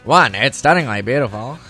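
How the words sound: It is read in a put-on imitated voice.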